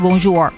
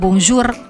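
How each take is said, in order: First: The R is an English-influenced R. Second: The R is a plain Indonesian-style R. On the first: The speaker calls it wrong. "terpengaruh oleh bahasa Inggris kita" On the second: The speaker calls it right. "saat kita bilang R-nya R aja gitu"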